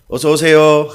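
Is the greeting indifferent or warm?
indifferent. The greeting sounds flat and indifferent.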